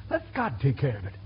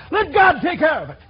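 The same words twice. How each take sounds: First: Soft, lower "Let God take care of it"; quiet. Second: Loud, higher "Let God take care of it"; shouted. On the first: Real, not acted. Preacher's quiet closing advice. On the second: Acted. Congregant ends the shouted objection.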